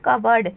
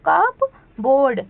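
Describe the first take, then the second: First: The p sound is left silent. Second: The p sound is clearly pronounced. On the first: The speaker calls it right. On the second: The speaker calls it wrong.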